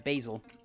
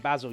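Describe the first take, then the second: First: It is said with an American pronunciation. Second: It is said with a British pronunciation. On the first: "you guys say uh, basil" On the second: "I say basil"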